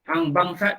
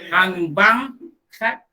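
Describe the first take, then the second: First: The words run together without a pause. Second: There is a short pause before the last word. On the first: It sounds like an insult calling someone a scoundrel. The speaker calls it wrong. "tak elok kan?" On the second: It asks someone to give the call to prayer for a moment. The speaker calls it right. "dia kena ada jarak, dia kena ada sabtar"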